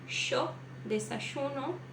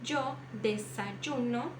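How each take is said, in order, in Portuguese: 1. É dito com sotaque argentino. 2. É dito com sotaque colombiano. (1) "um argentino ou uruguaio diria" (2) "um colombiano diria ... colocasse um D J"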